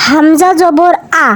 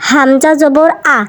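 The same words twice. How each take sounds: First: "আ" started hard from the top of the throat; firm glottal catch on "আ"; strong hamza. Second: Said in the usual way. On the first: Shown as a demonstration. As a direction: hamza "আ" pushed out firmly from the throat. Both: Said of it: "হামজার উচ্চারণ হলকের শুরু থেকে শক্তভাবে".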